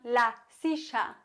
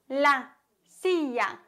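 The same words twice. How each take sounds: First: The double L sounds like 'sh', Argentine style. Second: The double L sounds like a 'y'.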